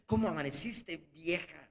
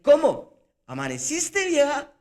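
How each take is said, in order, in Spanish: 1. Suena reprochador y poco amable. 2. Suena oscuramente burlón e incrédulo. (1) "Y ya hay allí como un reproche" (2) "¿Todavía está viva esta?"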